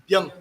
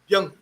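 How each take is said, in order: The two takes are said the same way.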